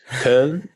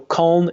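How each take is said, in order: First: The vowel is a rounded umlaut ö sound. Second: The vowel is a plain English o sound. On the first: The speaker calls it right. "is right" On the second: The speaker calls it wrong. "is definitely not right"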